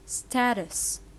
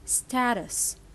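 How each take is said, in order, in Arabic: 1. لكنة أمريكية، الحرف المتحرك الأول مثل 'sat'. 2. لكنة أمريكية، الحرف المتحرك الأول مثل 'sat'.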